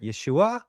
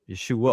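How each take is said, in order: First: The ending is pitched higher, without a nasal sound. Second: The ending is plain, without a nasal sound. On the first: "they might even go higher" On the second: "we just say Yeshua"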